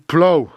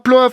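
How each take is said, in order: First: The word ends with a vowel sound. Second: The word ends with an f sound. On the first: The speaker calls it right. "je crois que ça se prononce to plow" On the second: The speaker calls it wrong. "ça se prononcera plof. Eh ben, pas du tout"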